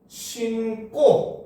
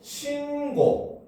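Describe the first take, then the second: First: The second syllable starts with a tense k sound. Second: The second syllable starts with a plain g sound. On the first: It means putting on shoes and then. "신고라고 얘기를 하면 ... 된소리되기가 일어나는 거예요" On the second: It means a report to the police. "어간 받침이라고 하는 조건을 만족하지 못하니까"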